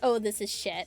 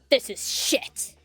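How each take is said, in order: First: It is said casually, without anger. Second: It is said angrily.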